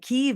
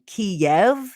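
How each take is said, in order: First: The name uses the Ukrainian pronunciation. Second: The name uses the Russian pronunciation. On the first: It shows support for Ukrainians. "the U- Ukrainian pronunciation" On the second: It implies the city belongs more to Russia. "the Russian pronunciation"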